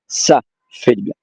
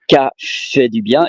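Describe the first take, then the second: First: The first word begins with an S sound. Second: The first word begins with a hard K sound. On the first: The speaker calls it right. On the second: The speaker calls it wrong. "it's not"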